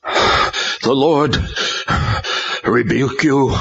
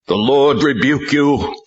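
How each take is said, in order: First: 1 exhausted rebuke. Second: 1 shouted rebuke. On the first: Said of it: "found the breath to say". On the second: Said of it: "Tal shouted". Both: A narrator's reading.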